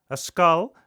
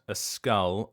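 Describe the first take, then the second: First: It is said in an imitated, put-on voice. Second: It is said in a plain, natural voice.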